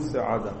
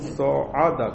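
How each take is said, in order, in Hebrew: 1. התנועה הראשונה נהגית כתנועה קצרה. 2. התנועה הראשונה נהגית כ-'o'. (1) "אצלכם זה שווא? ... זה יותר נוח באמת" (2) "אצלנו זה חטף קמץ"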